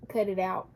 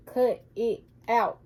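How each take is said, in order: First: Said in the usual way. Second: "Cut it out" slowly, each word separate; "Cut... it... out", firm and spaced; emphatic word by word. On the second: Real, not acted. Repeats the scolding word by word.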